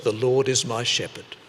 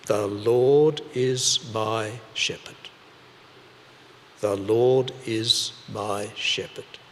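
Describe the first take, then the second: First: Said in the usual way. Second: Slow, deliberate recitation, word by word. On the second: Shown as a demonstration. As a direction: recite it slowly like a lesson learnt by heart. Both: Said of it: "they'd learnt".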